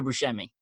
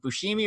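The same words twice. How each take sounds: First: "Bushemi" with a short e in the middle; "Bushemi" with middle syllable like "shem"; correct surname pronunciation. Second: "Bushimi" with a long ee in the middle; alternative surname pronunciation. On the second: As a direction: say "Bushimi" as boo-SHEE-mee. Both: Shown as a demonstration. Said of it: "is it Bushimi or Bushemi".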